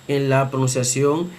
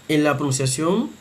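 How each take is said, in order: No difference in how they are said.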